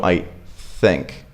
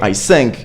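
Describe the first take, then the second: First: "think" with a true breathy-air "th", set apart; tongue between teeth on "think", blow the air; clear TH. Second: "think" said as "sink". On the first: Teacher showing learners the fix, clear TH. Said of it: "you just go". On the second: Teacher showing the common learner mistake, S for TH. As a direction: swap the "th" in "think" for an s. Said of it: "So instead of going". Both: Shown as a demonstration.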